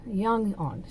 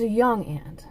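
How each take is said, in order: First: "aunt" said like "ahnt"; broad-a aunt. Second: "aunt" said like "ant"; short-a aunt. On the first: Vlogger repeating the description, "aunt" sounding like "ahnt". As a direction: say "aunt" with an open ah vowel. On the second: Vlogger describing the relative, "aunt" sounding like "ant". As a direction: say "aunt" with the a of "cat". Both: Shown as a demonstration. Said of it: "however you pronounce aunt or aunt".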